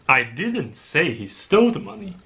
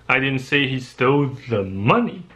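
First: The word 'didn't' is stressed. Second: The word 'the' is stressed. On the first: The speaker denies saying it at all. "That's not true at all" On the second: He took some other money. "but rather some other money"

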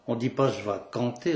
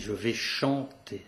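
First: The verb starts with a hard k sound. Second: The verb starts with a soft sh sound. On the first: This is the local patois form. "On dit pas je vais canter" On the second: This is the standard French form. "on dit je vais chanter"

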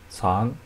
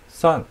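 First: The pitch rises from mid to high. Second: The pitch falls sharply from high.

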